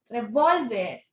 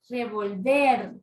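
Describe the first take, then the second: First: The stress is on the second-to-last syllable. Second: The stress is on the last syllable. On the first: "Bol, bol, revólver, bol" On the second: "la sílaba tónica es la última sílaba"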